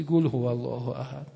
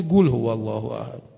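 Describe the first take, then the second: First: قل said as گول with a hard g, mocking it; mock the old man's گول for قل; mispronounced gul. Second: قل said as گول with a hard g, Azeri style; mispronounced gul. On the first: Teasing an old Azeri friend about his reading, saying گول. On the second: Retold or imitated. A preacher mocking an old Azeri man's misreading, saying گول. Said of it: "یک عمر گفته".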